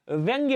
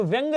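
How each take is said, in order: First: व्यंग्य with a y release after the g; correct form. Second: व्यंग ending on plain g; wrong form. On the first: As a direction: say व्यंग्य as "vyang-ya". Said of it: "व्यंग्य होता है". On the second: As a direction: say व्यंग as "vyang", no final y. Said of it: "जैसा कोई शब्द नहीं होता". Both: Shown as a demonstration.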